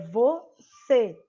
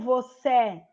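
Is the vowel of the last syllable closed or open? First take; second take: closed; open. First: The last vowel is said with a closed mouth. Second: The last vowel is said with an open mouth. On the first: The speaker calls it right. "eu fecho mais a minha boca. É você que eu falo" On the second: The speaker calls it wrong. "eu não falo você, eu não abro a boca"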